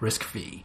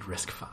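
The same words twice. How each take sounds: First: The final part is said as the letter vee. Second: The final part is said as the number five. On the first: The speaker calls it wrong. "we'll often have people call it RISC-V" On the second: The speaker calls it right. "but it is indeed RISC-V"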